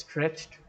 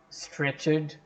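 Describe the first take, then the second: First: The word is said with one syllable. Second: The word is said with two syllables. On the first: The speaker calls it right. "it's stretched. It's a monosyllabic word" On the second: The speaker calls it wrong. "It's not stretched"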